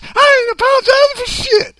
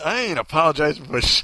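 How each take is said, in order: First: Loud, very high cartoon maid; hammed-up high, hollering old-lady voice; put-on maid voice. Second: Said in the usual way. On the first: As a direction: holler it way up high in mock outrage. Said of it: "you're gonna sound like this".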